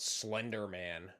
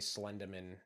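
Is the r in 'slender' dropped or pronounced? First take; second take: pronounced; dropped. First: The r sound is clearly pronounced. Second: The r sound is dropped, Boston style. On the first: "as in like not Slender Man" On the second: "I'm Slenderman because uh, you know, I'm from just south of Boston"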